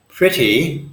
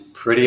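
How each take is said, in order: First: The middle consonant is a clear T sound. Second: The middle consonant sounds like a quick D. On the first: "Pretty would be the English pronunciation" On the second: "Pretty is pretty American"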